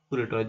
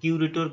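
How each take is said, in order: First: The first syllable sounds like 'koo'. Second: The first syllable sounds like 'kyoo'. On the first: "যে যেমন পারো উচ্চারণ করে" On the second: "কিউরেটরটা সব থেকে ভালো হবে"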